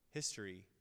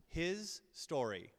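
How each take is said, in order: First: Said in the usual way. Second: "His story" drawn out slowly as two words; split wordplay. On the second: Shown as a demonstration. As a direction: stretch HIS, pause, then "story".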